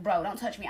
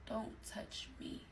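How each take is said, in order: First: Said in the usual way. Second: Very soft, slow whisper; whispered warning. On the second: Retold or imitated. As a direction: whisper it slowly, spacing out each word. Repeats rebuff while turning away in bed.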